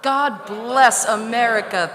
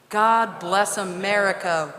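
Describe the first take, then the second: First: It is said with warm, heartfelt feeling. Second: It is said plainly, without much feeling.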